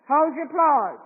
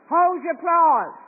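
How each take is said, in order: Both takes have the same delivery.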